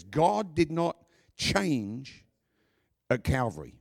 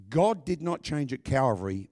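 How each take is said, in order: First: God did not change, each word slow and weighted, "God" rising; slow emphatic repeat. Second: Said in the usual way. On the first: Shown as a demonstration. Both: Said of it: "just want everybody to understand this".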